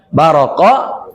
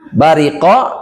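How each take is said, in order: First: The middle vowel is an 'a' sound. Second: The middle vowel is an 'i' sound. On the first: "sebagian qiraat dibacanya enggak bariqo tapi baroko" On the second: "Bariko dan baroko dan maknanya berdekatan"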